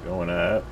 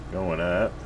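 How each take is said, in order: Both takes have the same delivery.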